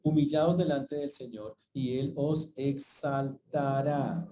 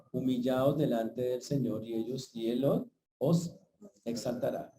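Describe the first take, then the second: First: Slow scripture reading. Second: Said in the usual way. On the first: Shown as a demonstration. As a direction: read the verse slowly and solemnly. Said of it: "Por eso dice el texto al final".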